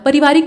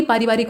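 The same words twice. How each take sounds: First: पारिवारिक starting with short pa; short first vowel in पारिवारिक; wrong short opening. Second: पारिवारिक starting with long paa; long aa opening. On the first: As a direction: say पारिवारिक as pa-rivaarik. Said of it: "पारिवारिक नहीं बल्कि". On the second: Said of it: "बल्कि पारिवारिक होता है". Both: Shown as a demonstration.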